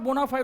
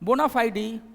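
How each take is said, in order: First: The word ends on the d sound. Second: The word ends with an added ee vowel. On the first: The speaker calls it wrong. "That is not बोनाफाइड" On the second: The speaker calls it right.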